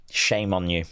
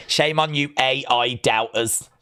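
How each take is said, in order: First: Said in the usual way. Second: Wag a finger at them; mock scolding. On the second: Building scolding.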